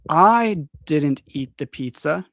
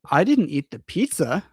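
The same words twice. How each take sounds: First: The stress falls on the word I. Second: The stress falls on the word pizza. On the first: "is like, it was not me, it was another person" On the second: "the stress is on the pizza"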